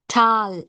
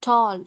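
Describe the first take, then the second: First: The vowel is a short 'ah' sound. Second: The vowel is a long 'aw' sound. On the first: The speaker calls it wrong. "we say ah, ah, tal, ah. It's wrong" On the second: The speaker calls it right. "It's tall, tall, o, o sound"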